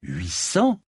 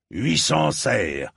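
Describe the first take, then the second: First: "Huit cents?" rising sharply on "cents"; taken-aback echo question. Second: "Huit cents serres" drawn out slowly, pitch up then falling; firm price announcement. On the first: Knight echoes an unexpected price, "Huit cents?" rising in surprise. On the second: Armourer names his price, "Huit cents serres" slow and falling. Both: Acted.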